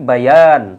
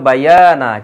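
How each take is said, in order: First: The final vowel is dropped. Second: The word ends with a final vowel. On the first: This is how it is read when stopping there. "থেমে যাওয়ার কারণে পড়ে কি বায়ান" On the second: This is the full form of the word. "শব্দটা ছিল বায়ানা"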